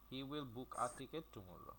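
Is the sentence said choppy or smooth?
smooth. The words run together without gaps. The speaker calls it right. "ইংরেজিতেও এই একসাথে বলতে হবে"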